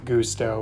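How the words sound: It is said with a Spanish 'oo' vowel. "the word gusto in Spanish"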